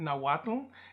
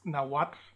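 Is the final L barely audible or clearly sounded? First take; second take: clearly sounded; barely audible. First: The final L is sounded fully and clearly. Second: The final L is barely audible, like breath. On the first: The speaker calls it wrong. "I'm overpronouncing that L" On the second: The speaker calls it right. "It's almost a silent L, ... like a little puff of air"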